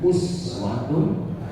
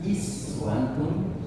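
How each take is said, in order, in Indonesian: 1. Kata ini dimulai dengan vokal 'u'. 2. Kata ini dimulai dengan vokal 'i'. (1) "Dhamma, ya. Uswa. Us Dhamma" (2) "Ayat ini bisa dibaca juga dengan kasrah"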